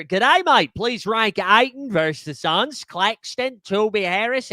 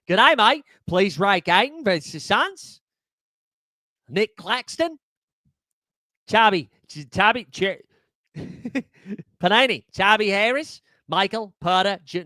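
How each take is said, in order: First: A shaky put-on Australian accent that slips as it goes; hammed-up Aussie greeting, the Australian accent fading out. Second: A second try at a put-on Australian accent, stumbling over names; hammed-up Aussie read, breaking into a laugh. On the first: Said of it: "you could see the accent fall off in real time". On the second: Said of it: "One more time".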